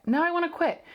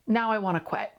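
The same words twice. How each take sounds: First: Much higher, falling hard on I; emphatic repeat. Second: Said in the usual way. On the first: Real, not acted. Host to listeners, emphatic frustrated repeat. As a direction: push it up and land it.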